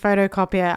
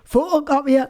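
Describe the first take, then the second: First: Australian accent, with the t sounding like d. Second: Newcastle accent, with the vowels almost dropped. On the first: "as an Aussie, I'm saying photocopier. I'm not really pronouncing the T" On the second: "with Newcastle accent for photocopier, they almost don't pronounce any of the vowels"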